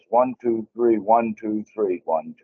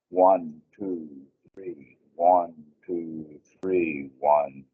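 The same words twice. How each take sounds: First: The counting is fast. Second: The counting is slow.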